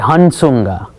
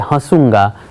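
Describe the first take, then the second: First: A full n sound comes before the s. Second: The vowel is nasalized without a full n. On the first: The speaker calls it wrong. "you would say Hansunga... my only frame of reference is the letters" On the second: The speaker calls it right. "you're supposed to say Hasunga. There's a little huh"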